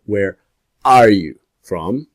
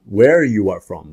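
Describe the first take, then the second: First: Slow, with a pause after "Where" and "are" hit and rising; stress on ARE. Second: Said in the usual way. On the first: Shown as a demonstration. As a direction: lean on "are" after a held beat on "Where".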